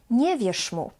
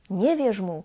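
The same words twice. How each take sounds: First: The consonant ending wierz is a voiceless sz. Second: The consonant ending wierz is a voiced ż. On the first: This is the Warsaw way of speaking. "I will change it to voiceless sz" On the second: This is the Krakow and Poznań way of speaking. "he will keep the voiced character of this ż"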